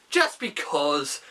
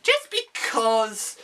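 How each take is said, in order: First: "just because" dropped low and slow; low slow echo. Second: A drawn-out, playful "just because". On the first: Repeated catchphrase, echoed deeper. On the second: Repeated catchphrase, second take lower. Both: Pretend.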